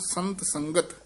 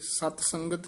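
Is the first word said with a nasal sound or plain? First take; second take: nasal; plain. First: The first word has a nasal sound. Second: The first word has no nasal sound. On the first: The speaker calls it right. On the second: The speaker calls it wrong.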